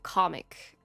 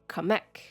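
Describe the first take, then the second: First: The name sounds just like 'comic'. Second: The name does not sound like 'comic'. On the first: The speaker calls it wrong. "the characters keep saying comic" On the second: The speaker calls it right. "It's always been pronounced Kamek"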